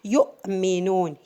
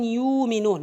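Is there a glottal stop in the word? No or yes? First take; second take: yes; no. First: The letter is said as a glottal stop. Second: The letter is said as a long vowel. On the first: The speaker calls it right. "this letter became hamza now" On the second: The speaker calls it wrong. "We're not saying yu'minun. No"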